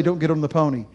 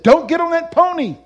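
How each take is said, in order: First: Said in the usual way. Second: High, loud retold command from heaven; booming warning.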